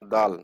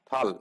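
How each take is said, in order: First: The word begins with a d sound. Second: The word begins with a t sound. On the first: The speaker calls it wrong. "আমাকে আমার শিক্ষক কি পড়াইছে জানেন?" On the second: The speaker calls it right. "কি হবে উচ্চারণ?"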